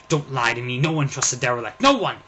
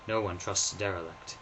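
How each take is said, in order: First: Loud, rising furious outburst; angry refusal. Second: Said in the usual way. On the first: Acted. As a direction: shout down the offer of help.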